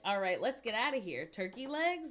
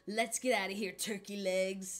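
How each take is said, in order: First: Turkey legs is a separate rising question. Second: Turkey legs falls, addressed as a name.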